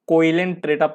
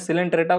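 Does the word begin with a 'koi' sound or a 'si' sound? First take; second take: koi; si. First: The word begins with a 'koi' sound. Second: The word begins with a 'si' sound. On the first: The speaker calls it wrong. "पहले मैं सिलेंट्रेटा को कोइलेंट्रेटा पढ़ता था" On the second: The speaker calls it right. "ये ओ silent है"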